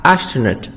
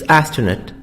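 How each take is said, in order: First: "astronaut" with SH in place of the S; alternative pronunciation. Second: Said in the usual way. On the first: Shown as a demonstration. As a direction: say "astronaut" opening with "ash". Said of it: "they say a". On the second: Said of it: "but it's astronaut".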